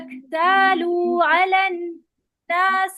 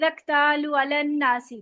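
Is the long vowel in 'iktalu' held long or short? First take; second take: long; short. First: The vowel of 'lu' is held long. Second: The vowel of 'lu' is cut short. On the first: The speaker calls it right. "पूरा वाव मद्दा करेंगे" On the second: The speaker calls it wrong. "लू पे वाव मद्दा नहीं करते पूरा"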